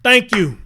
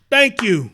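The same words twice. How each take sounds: The two takes are said the same way.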